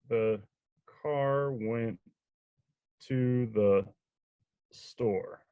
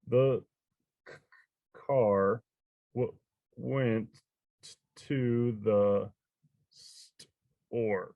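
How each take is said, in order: First: It is read somewhat more smoothly, still uneven. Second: It is read haltingly, word by word. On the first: The reader is becoming familiar with the text. "the second time they read it" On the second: The reader is meeting the text for the first time. "the first time they read a book, they might sound like this"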